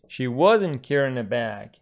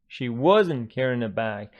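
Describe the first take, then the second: No difference in how they are said.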